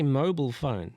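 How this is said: It is said in an American accent.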